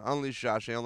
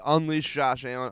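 First: Softer echo. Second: Said in the usual way. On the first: Retold or imitated. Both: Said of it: "I said".

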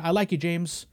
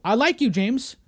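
First: Calm mock boss. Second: Loud mock boss. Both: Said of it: "Imagine I'm David Zaslav".

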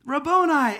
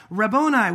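First: Much higher and louder, bursting out; overjoyed cry. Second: Loud Aramaic word, called out but held in; a touch of awe in the name; Mary's cry of recognition. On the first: Mary recognising Jesus at the tomb, ecstatic cry. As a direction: let the name break out of her. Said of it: "And she's like". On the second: Mary turning to the risen Jesus, lightly voiced recognition. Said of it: "she turned and said to him in Aramaic". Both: Acted.

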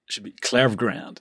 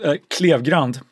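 First: Klevgrand said the American way, KLEV-grand; standard American accent. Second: Klevgrand said the Swedish way, KLEEV-grahnd; Swedish pronunciation. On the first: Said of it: "if I use my American voice". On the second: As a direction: Klevgrand with a Swedish vowel and rolled r. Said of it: "should I do the Swedish?". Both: Shown as a demonstration.

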